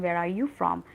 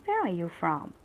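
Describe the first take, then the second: First: Said in the usual way. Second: "Where" punched, falling at the end; "Where" stressed, the rest light and falling. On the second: Shown as a demonstration. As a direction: lean on "Where" and let the question drop. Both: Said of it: "there should be kind of emphasis on the word".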